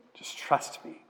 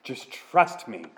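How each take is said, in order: First: Whispered tender plea. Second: God pleading slowly and softly; slow soft plea. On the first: God whispering to thirsty Israel to trust him, whispered. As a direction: breathe it to them as a whisper. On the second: God gently urging thirsty Israel to trust him, slow and soft. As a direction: ease the words out gently, slowly. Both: Acted.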